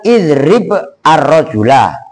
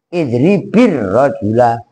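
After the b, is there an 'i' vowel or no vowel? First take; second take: no vowel; i vowel. First: The b has no vowel before the next word. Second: The b takes an 'i' vowel, linking the words. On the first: This is the underlying base form. "Asalnya kan" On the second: This is how it is read in connected speech. "Kalau dibaca langsung kan idribir rajula ... baknya ganti dikasroin"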